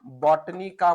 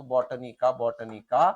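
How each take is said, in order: First: Said in the usual way. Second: Repeated for dictation. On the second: Shown as a demonstration. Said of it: "Botanica म्हणून ओळखत असतो".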